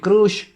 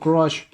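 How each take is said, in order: First: Crush is pronounced a Spanish-influenced way. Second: Crush is pronounced the standard English way. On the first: The speaker calls it wrong. "Y ustedes lo que dicen es" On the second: The speaker calls it right. "Se tiene que decir crush"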